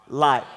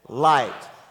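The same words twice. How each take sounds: First: It is said plainly, without extra force. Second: It is said with strong force and conviction.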